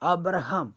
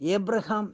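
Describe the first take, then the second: First: The name begins with a short 'a' vowel. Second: The name begins with an 'ay' vowel. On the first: This is the Hebrew and Malayalam way of saying it. "അബ്രഹാം എന്ന് Hebrew പറയുന്നു" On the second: This is the English way of saying it. "ഏബ്രഹാം എന്ന് ഇംഗ്ലീഷിൽ പറയുന്നു"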